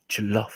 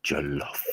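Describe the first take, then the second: First: A second, brighter go at Jollof; repeat of the word. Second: Jollof said slowly and softly as CHOL-of, for the friend to repeat; teaching the word. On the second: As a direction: sound out Jollof with a soft ch start. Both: Shown as a demonstration. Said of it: "Say, say it with me".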